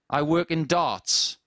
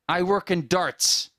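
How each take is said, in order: First: It is said in a northern English accent. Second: It is said in an imitated American accent. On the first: Border officers could not understand it. "a very strong northern accent from England" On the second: Border officers understood it. "mimic the accent of an American"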